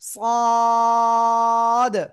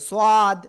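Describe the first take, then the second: First: The vowel is stretched out long. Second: The vowel is held only briefly. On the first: The speaker calls it right. "চার আলিফ টান" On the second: The speaker calls it wrong. "অনেকে আবার এরকম উচ্চারণ করে"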